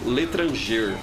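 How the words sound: It is said with a Brazilian Portuguese accent. "in Brazilian Portuguese, we would say l'étranger, like that"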